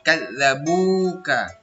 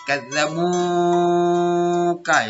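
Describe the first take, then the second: First: The long vowel is held for two beats. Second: The long vowel is stretched far too long. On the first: The speaker calls it right. "dibaca panjang kadzabuka ... hanya satu alif ya. Dua harokat" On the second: The speaker calls it wrong. "Tidak boleh juga terlalu panjang. Kadzabuka itu malah salah"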